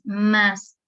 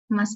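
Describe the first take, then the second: First: The word is said with strong emphasis. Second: The word is said lightly, without emphasis. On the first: It expresses quantity, meaning more. "estoy poniendo más énfasis" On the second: It means but or however. "Ahí no se acentúa"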